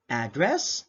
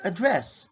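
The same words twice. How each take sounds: First: "address" as AD-dress, said slowly as a noun; first-syllable stress. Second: "address" as a-DRESS, said as a verb; second-syllable stress. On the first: Teacher previews the drill, noun stress on first syllable. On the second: Teacher previews the drill, verb stress on second syllable. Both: Shown as a demonstration. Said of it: "identify if it is sounded as".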